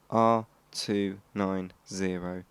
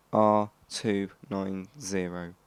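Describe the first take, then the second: No difference in how they are said.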